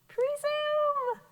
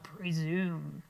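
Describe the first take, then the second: First: It is said in a high-pitched voice. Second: It is said in a low-pitched voice. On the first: "Say it high" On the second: "Say it low"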